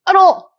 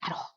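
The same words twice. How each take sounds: First: Much higher, emphatic repeat; high-pitched emphasis. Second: Very soft, voiceless murmur; hushed afterthought. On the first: Podcaster insisting she still dislikes her, high-pitched. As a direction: jump the pitch right up to insist. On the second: Podcaster admitting she still dislikes her, hushed. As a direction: tack it on under your breath. Emphatic repeat, first take hushed. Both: Real, not acted.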